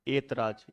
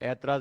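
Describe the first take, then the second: First: The first vowel sounds like 'e'. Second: The first vowel sounds like 'ai'. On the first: The speaker calls it right. "ए बोलते हैं" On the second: The speaker calls it wrong. "ऐतराज नहीं होता है"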